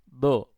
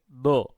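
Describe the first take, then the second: The two takes are said the same way.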